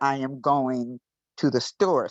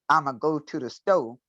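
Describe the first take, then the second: First: Every word is said in full, unshortened. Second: The first words are squeezed together and shortened. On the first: This is the standard English way of saying it. "I am going to the store in standard English" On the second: This is the Gullah way of saying it. "In Gullah, we squeeze some together like I'm a go"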